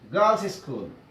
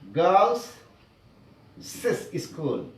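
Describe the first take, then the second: First: No extra syllable is added after girls. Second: An extra 'iz' syllable is added after girls. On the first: The speaker calls it right. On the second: The speaker calls it wrong.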